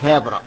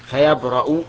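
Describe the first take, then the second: First: The word ends with a short 'a' vowel. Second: The word ends with a short 'u' vowel. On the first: The healing follows as the answer to the prayer. "منصوب لأنه جواب الدعاء" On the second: It starts a new, independent statement. "أما إذا قرئ بالرفع فيبرأ فإنه مستأنف"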